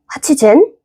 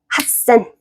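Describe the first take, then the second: First: The 'chi' is kept and 'sen' becomes 'zen'. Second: The 'chi' is dropped into a doubled consonant. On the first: The speaker calls it wrong. "더 힘든데?" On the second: The speaker calls it right. "핫센으로 바꿔줍니다"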